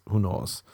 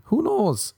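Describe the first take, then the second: First: Said in the usual way. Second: "Who knows?" squeaked way up high in a mock shrug; squeaky who knows. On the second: Host shrugging off an old phrase, high squeak.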